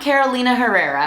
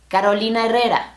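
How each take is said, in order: First: It is pronounced with English sounds. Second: It is pronounced with Spanish sounds. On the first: The speaker calls it wrong. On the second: The speaker calls it right. "name is pronounced Carolina Herrera"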